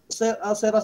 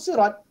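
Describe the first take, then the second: First: The long vowel is tilted toward e. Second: The long vowel is a plain open a. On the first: The speaker calls it wrong. "sebutan yang salah" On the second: The speaker calls it right. "asalnya memang sirat"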